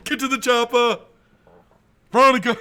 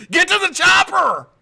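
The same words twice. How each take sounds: First: High, loud mock-heroic yell; hammed-up action call. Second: Very high, full-volume movie-hero yell; hammed-up action shout. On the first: Repeating the getaway order to Veronica, mock shout. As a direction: shout the escape order for laughs. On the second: Joking getaway order to Veronica, hammed-up shout. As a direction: bellow it like an over-the-top escape order. Acted film line in getaway story.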